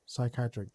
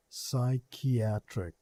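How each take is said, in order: First: Said in the usual way. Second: "Psychiatric" drawn out syllable by syllable, sy-KI-a-tric; slow careful pronunciation. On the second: Shown as a demonstration. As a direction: spell out "Psychiatric" slowly, each syllable clear. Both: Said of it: "that's what I said".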